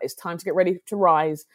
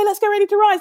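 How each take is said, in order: First: It is said in a serious, sober way. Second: It is said in a cheerful, excited way.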